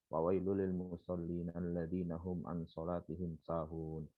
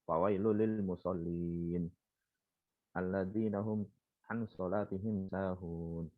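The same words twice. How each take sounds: First: It flows on without a pause after musallin. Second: It pauses after musallin before continuing.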